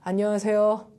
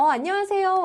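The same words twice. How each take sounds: First: The greeting sounds flat and plain. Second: The greeting sounds warm and friendly.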